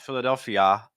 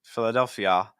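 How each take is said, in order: First: The word ends in a full 'ah' vowel. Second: The same.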